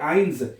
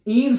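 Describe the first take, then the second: First: The vowel sounds like 'eye'. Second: The vowel sounds like 'ee'. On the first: The speaker calls it right. "आई पढ़ने" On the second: The speaker calls it wrong. "ईन्स नहीं पढ़ना इसको"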